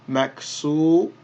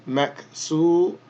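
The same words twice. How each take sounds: Both takes have the same delivery.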